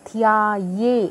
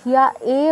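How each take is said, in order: First: The ending is pronounced with a 'ye' glide. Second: The ending is pronounced as a plain 'e'. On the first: The speaker calls it right. "ইয়ে বলতে হবে" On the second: The speaker calls it wrong. "ধিয়া এ বলবো না"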